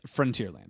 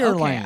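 First: It is said in the speaker's usual accent. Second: It is said in the boss's odd accent.

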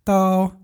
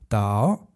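First: The pitch stays high and level. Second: The pitch rises from middle to high.

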